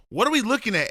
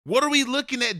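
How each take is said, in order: First: Said in the usual way. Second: "What are we looking at?" asked higher, exasperated; exasperated repeat. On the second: Shown as a demonstration. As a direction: ask again, higher and fed up. Coach repeats question louder.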